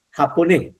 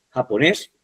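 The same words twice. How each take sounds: First: Japonés read as misprinted, final s replaced by a nasal; misprinted ending. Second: Japonés ending in a clear s; corrected ending. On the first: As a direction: say japonés without its closing s. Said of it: "aquí hay un error". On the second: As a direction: sound the final -és of japonés. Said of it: "es japonés". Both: Shown as a demonstration.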